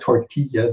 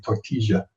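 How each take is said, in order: First: The consonant before the last vowel is a y sound. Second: The consonant before the last vowel is a sh sound. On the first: This is the usual Spanish way of saying it. "instead of tortilla" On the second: This is how Argentinians say it. "they say tortilla"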